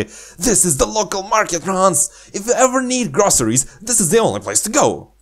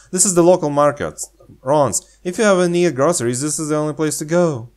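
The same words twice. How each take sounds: First: High, fast, perky guide voice; high enthusiastic girl. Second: Fast, peppy tour guide; enthusiastic guide. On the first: Redoing the market line as an eager girl. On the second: Showing the local market, peppy and fast. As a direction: sell it fast and bright. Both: Pretend. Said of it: "She seems very enthusiastic".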